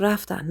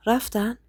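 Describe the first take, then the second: First: Subdued statement, closing fall on «رفتن.»; falling answer. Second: Softly asked «رفتن؟», tentative rise; hushed, gentle question on «رفتن؟»; quiet question. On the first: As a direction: softly confirm «رفتن.», pitch dropping at the end. Answer to the quiet question. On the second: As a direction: ask «رفتن؟» in a soft voice. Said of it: "با صدای آرومی گفت". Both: A narrator's reading.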